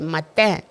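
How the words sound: The name is said with a French pronunciation.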